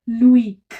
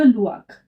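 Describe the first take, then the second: First: "लुइक" split into oo and a drawn-out ee; vowels sounded separately. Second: "लुआक" with o and i blended as "wa"; vowels run together. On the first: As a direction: give each vowel of "लुइक" its own sound. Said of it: "इन दोनों को फिर अलग-अलग". ("लुइक" दोनों स्वर अलग-अलग) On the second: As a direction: glide straight through "लुआक" as one sound. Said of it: "दोनों को साथ में प्रोनाउंस करेंगे". ("लुआक" दोनों स्वर मिलाकर) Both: Shown as a demonstration.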